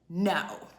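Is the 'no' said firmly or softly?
firmly. The word is said bluntly and firmly. The speaker calls it wrong. "why you gotta be so firm?"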